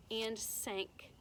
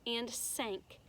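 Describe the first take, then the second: No difference in how they are said.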